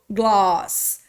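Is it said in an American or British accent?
British. It is said with an open British A.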